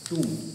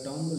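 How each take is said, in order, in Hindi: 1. इसमें 'oo' स्वर है और अंत में b नहीं है। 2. इसमें 'o' स्वर है और अंत में b है। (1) "शुद्ध शब्द प्रोनाउंसिएशन क्या हो जाएगा, टूम" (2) "इसका हो जाएगा टॉम्ब, लेकिन ये गलत है"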